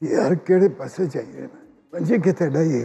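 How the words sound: It is said in a nervous tone.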